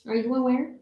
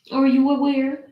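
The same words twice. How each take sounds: First: Said in the usual way. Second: Higher, louder, insisting; a hammed-up demand, louder; louder insistent. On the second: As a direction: press the dog for an answer. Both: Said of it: "And I'm just like".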